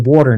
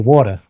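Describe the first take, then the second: First: It is said in a more neutral accent. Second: It is said in a Bronx accent.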